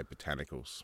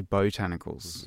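First: Botanicals said plainly with a short first vowel, puh-TAN-ih-kulz; everyday Aussie botanicals, quick and unstressed. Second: Botanicals said slowly and posh, long first vowel boh-TAN-ih-kulz; fancy botanicals. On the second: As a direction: botanicals drawn out, first syllable a full BOH. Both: Shown as a demonstration. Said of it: "you're a slightly fancier man than me".

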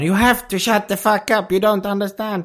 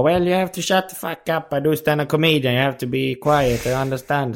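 First: High-pitched mock fury, no real shout; imitated angry outburst. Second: Higher-pitched imitated telling-off in English; mock scolding. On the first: Retold comedian losing patience with chatting Americans, mock-angry high outburst. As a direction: scold in exasperation, pitched well up. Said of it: "då blir han skitsur". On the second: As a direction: lecture hecklers, not shouting. Retold scolding of American hecklers.

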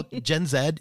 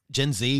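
First: Z in "Gen Z" said as "zed"; British-style Zed. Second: Z in "Gen Z" said as "zee"; American-style Zee. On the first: Podcaster naming the horror generation, Z pronounced "zed". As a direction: say the Z as "zed", ending on a D. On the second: Podcaster casually correcting the generation's name, Z pronounced "zee". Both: Real, not acted. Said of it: "Gen Z, whatever".

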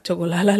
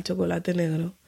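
First: "Chocolala" with the last syllable turned into a second "la"; baby-talk "Chocolala" in place of chocolate; toddler word. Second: Said in the usual way. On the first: Retold or imitated. Toddler's own word for dark chocolate, "Chocolala". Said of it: "le dice ella al chocolate negro". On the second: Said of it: "le dice ella al".

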